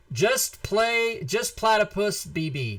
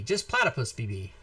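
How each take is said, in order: First: Drawn out, slow, announcer-style reveal; winner announcement. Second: Said in the usual way. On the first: Shown as a demonstration. Host announcing the giveaway winner, slow drawn-out reveal. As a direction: savor the winner's name slowly. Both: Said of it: "The winner is".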